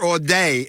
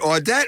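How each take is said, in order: First: The name is said the local French way. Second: The name is said the plain English way.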